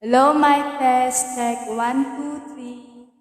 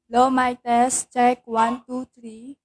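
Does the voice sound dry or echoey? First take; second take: echoey; dry. First: The voice is heard with an added echo. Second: The voice is heard dry, with no echo.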